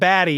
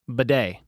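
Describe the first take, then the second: First: The name sounds like the word 'baddie'. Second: The name ends in a stressed 'day' sound. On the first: The speaker calls it wrong. "It's not baddie" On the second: The speaker calls it right. "It's pronounced Bidet"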